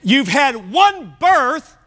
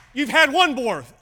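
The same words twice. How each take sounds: First: "birth" said slowly and clearly, in full; slow, emphatic correction of "one birth"; slowed down, careful. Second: "birth" fumbled, coming out like "borth"; slurred slip. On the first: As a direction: spell out "one birth" with deliberate weight. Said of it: "Slow down and just say the word". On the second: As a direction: trip over the word "birth". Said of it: "Hang on, let me say that in English". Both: Real, not acted.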